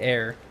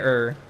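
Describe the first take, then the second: First: The vowel sounds like the one in hair. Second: The vowel sounds like the one in her. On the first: "We say air" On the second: "We don't say er"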